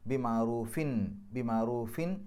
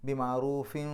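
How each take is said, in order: First: ബി മഅറൂഫിൻ with the nunation sounded out clearly; clear izhar noon. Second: ബി മഅറൂഫിൻ with the final n merged into the next w and held nasal; nasal merging. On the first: Teacher demonstrating clear nunation to students. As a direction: ring the n of മഅറൂഫിൻ crisply before the next word. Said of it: "നൂനിൻ്റെ ശബ്ദത്തെ ശരിക്ക് പുറത്തേക്ക് കേൾക്കുന്ന രൂപത്തിൽ വെളിവാക്കി പറയാം". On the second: Teacher demonstrating idgham with ghunna. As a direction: let the n of മഅറൂഫിൻ melt into a humming w. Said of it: "തൻവീനിനെ വാവിലേക്ക് ലയിപ്പിക്കുക, മണിക്കുക".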